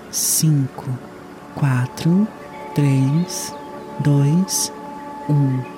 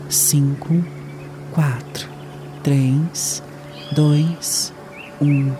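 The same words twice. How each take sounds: The two takes are said the same way.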